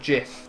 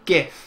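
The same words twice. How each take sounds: First: The word begins with a J sound. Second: The word begins with a hard G sound. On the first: The speaker calls it wrong. "why would it be called a GIF? That'd be J" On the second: The speaker calls it right. "it's a G, G, GIF. It makes more sense"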